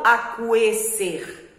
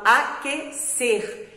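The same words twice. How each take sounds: First: Aquecer said with the U sounded, akweser; wrong pronunciation. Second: Aquecer said as akeser, the U silent; right pronunciation. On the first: Teacher showing pupils the wrong way, U voiced. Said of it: "Eu não falo aquecer". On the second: Teacher showing pupils the right way, U silent. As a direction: say aquecer correctly, no U. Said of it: "eu falo aquecer". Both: Shown as a demonstration.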